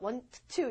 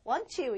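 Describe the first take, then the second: First: The t at the end of want is pronounced. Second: The t at the end of want is dropped. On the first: The speaker calls it wrong. "이러지 않죠?" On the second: The speaker calls it right. "이러죠"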